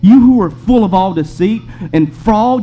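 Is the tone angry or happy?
angry. It is said in an angry, stern tone. The speaker calls it right. "You can hear the anger in the tone as he speaks to this man"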